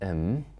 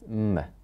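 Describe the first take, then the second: First: The word has a full vowel. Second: The word is reduced to a consonant. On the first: "A strong form is am" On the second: "or just m"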